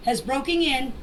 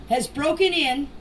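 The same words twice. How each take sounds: The two takes are said the same way.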